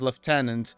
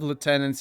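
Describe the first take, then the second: First: It is said with a British pronunciation. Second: It is said with an American pronunciation. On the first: "in in British English" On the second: "in in American English"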